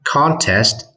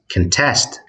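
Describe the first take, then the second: First: The stress is on the first syllable. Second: The stress is on the second syllable. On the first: It is a noun meaning a competition. "Contest гэх юм бол тэмцээн гэсэн утгатай нэр үг" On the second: It is a verb meaning to compete or dispute. "Contest гэх юм бол уралдах, эсрэгцэх одоо тэмцэх гэсэн утгатай үйл өгүүлжтэй"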